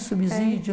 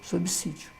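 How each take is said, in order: First: The middle consonant is a buzzing z sound. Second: The middle consonant is a hissing s sound. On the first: It sounds fancier. The speaker calls it wrong. "fica até parecendo que é mais bonito" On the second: It follows the spelling rule. The speaker calls it right. "Seguindo a regrinha"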